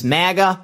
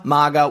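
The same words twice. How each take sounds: First: Maga with a flat short a, like "mag-uh"; accent on maga. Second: Maga with a broad open a, like "MAH-guh"; other maga. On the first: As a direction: say maga rhyming the first part with "bag". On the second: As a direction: say maga rhyming the first part with "spa". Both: Shown as a demonstration. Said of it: "That's my accent".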